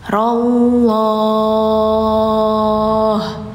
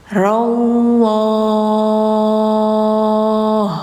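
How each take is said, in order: The two takes are said the same way.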